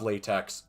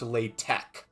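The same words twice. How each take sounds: First: The word ends with a ks sound. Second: The word ends with a k sound. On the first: The speaker calls it wrong. "I'm saying it wrong. I called it LaTeX because it's spelled latex" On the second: The speaker calls it right. "It's pronounced LaTeX. ... It's pronounced tech"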